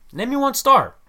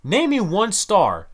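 First: Higher, louder challenge; emphatic demand. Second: Said in the usual way. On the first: Acted. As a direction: demand it, pitch up and push. Rant, repeated challenge.

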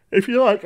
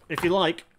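First: Words pulled out of shape by a yawn. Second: Said in the usual way. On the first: Real, not acted. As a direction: say it mid-yawn. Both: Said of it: "I'm yawning, I'm so sorry".

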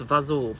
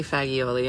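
First: Fazool, fa-ZOOL, ending dropped; fazool, two syllables, stressed on ZOOL; Italian-American pronunciation. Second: Fagioli said in full, fa-jee-OH-lee; standard pronunciation. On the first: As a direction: cut fagioli down to fazool with a long oo. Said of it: "It's fazool". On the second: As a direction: sound every syllable of fagioli, final -ee included. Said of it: "and that's not it". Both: Shown as a demonstration.

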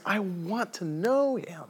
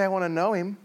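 First: Slow, high, yearning declaration; heartfelt and drawn out; earnest longing. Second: Said in the usual way. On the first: Acted. Paul's longing, against casual retake.

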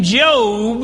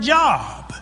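First: Job with a long o; long-o Job, drawn out; Bible name pronunciation. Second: Job with a short o; short-vowel job, as in employment; everyday word pronunciation. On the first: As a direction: say Job to rhyme with robe. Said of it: "it is spelled identical to". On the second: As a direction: say job to rhyme with rob. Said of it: "identical to the word job". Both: Shown as a demonstration.

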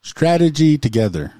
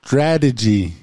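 First: STRATEGY TOGETHER run quickly as one phrase; said fast. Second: STRATEGY said singly and deliberately; careful articulation. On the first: Co-host shows off the tricky phrase, said fast. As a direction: rattle STRATEGY TOGETHER off without a break. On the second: Co-host shows a tricky word to the stumbler, careful articulation. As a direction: give STRATEGY its own careful beat. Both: Shown as a demonstration. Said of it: "I'll say it fast".

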